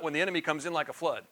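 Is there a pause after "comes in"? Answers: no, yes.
no. The phrase runs on without a pause after "in". The speaker calls it wrong. "Not when the enemy comes in like a flood"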